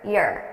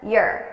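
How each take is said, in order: First: The word is unstressed with a reduced vowel. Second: The same.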